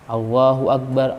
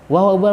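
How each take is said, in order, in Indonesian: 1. Diucapkan pelan dan dipanjangkan. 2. Diucapkan cepat tanpa dipanjangkan. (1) "kalau adzan eh, pelan-pelan" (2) "dalam iqamah yaitu dengan cep cepat"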